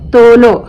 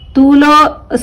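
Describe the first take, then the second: First: The first vowel is an 'o' sound. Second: The first vowel is a long 'oo' sound. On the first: The speaker calls it right. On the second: The speaker calls it wrong.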